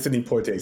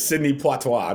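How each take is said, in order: First: It is said in a plain, ordinary voice. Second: It is said in an exaggerated, stoic put-on accent. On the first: "Not even Sidney Poitier" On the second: "Sidney Poitois. Not even Sidney Poitier"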